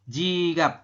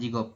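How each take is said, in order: First: The second vowel is an open 'a' sound. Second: The second vowel is a rounded 'o' sound. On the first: The speaker calls it right. "Jigap bukan jigop" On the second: The speaker calls it wrong. "bukan jigop"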